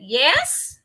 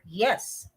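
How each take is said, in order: First: The pitch rises at the end. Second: The pitch falls at the end. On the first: "If it's rising, yes" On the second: "If it's falling, that is yes"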